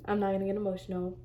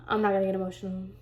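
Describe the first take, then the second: First: Much softer, rushed, nearly breaking; swallowing the tears, barely audible; holding back tears. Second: Quick, softer, choked-up murmur; fighting off tears while talking fast; holding back tears. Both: Real, not acted.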